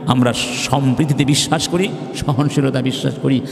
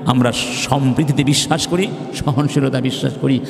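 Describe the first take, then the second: No difference in how they are said.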